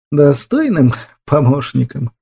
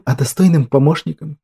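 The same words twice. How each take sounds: First: Slow, mournful echo; sad, drawn-out. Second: Said in the usual way. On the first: A narrator's reading. Ruler repeats the girl's words, sadly and slowly. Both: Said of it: "повторил правитель печально и протяжно".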